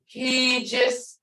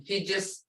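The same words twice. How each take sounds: First: "He just" with the first vowel held long. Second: "He just" with a quick short first vowel. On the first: Teacher showing students the longer tone, long drawn vowel. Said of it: "he sees it is long". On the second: Teacher showing students the shorter tone, short vowel. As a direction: keep the "He" in "He just" brief. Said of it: "He just is short". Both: Shown as a demonstration.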